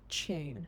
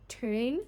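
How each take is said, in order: First: It begins with a blended ch sound. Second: It begins with a separate t and y sound.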